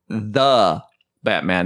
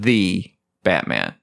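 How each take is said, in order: First: The word 'the' has a short 'thuh' vowel. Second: The word 'the' has a long 'thee' vowel. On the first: The speaker calls it right. "It's The Batman" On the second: The speaker calls it wrong. "not The Batman"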